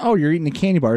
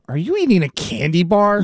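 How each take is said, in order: First: It is said in a neutral, friendly tone. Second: It is said in a disdainful, shaming tone.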